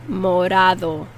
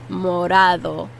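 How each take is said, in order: Both takes have the same delivery.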